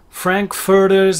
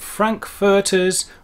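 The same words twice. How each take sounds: First: It is said in an American accent. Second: It is said in a British accent.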